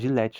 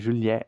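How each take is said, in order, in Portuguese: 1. É falado com a pronúncia do português brasileiro. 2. É falado do jeito inglês, começando com 'j'. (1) "Aqui no Brasil a gente fala" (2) "então ainda com som de J"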